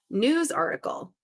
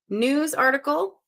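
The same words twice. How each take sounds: First: Said in the usual way. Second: Slower, rising repeat of "News article"; puzzling over "News article" slowly; slow questioning reread. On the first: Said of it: "reads clue aloud first time". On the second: Shown as a demonstration. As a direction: draw out "News article" and lift the end. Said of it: "repeats clue, slower, rising".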